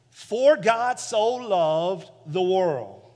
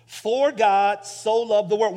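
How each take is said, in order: First: Slow scripture reading. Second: "so" leaned on, a bit louder; stress on so. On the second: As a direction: press the word "so" to carry the weight. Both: Shown as a demonstration. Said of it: "When you hear "so".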